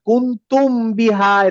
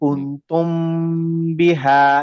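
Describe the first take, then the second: First: The m is clear and short before b. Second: The m is nasal and held two counts. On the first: The speaker calls it wrong. "Clear মিমের মতো উচ্চারণ করব না, কুন্তুম বিহা এরকম বলবো না" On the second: The speaker calls it right. "গুন্না দিয়ে"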